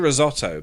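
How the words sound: It is said in a non-American pronunciation. "We say risotto"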